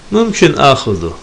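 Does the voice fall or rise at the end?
falls. The voice falls on the last word. It states that taking it is possible. "yani olabilir manasına geliyor"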